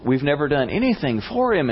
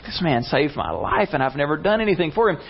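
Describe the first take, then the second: First: Said in the usual way. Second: Higher-pitched, mildly astonished; floored. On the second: Retold or imitated. King realizing he never repaid his rescuer, floored. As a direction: quicken up in disbelief.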